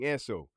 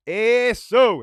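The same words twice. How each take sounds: First: Said in the usual way. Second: Loud, high-pitched shout; yelled cheer. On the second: Real, not acted. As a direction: yell it out suddenly, high and loud. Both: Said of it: "And stop yelling".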